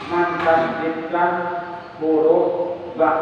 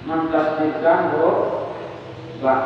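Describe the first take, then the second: No difference in how they are said.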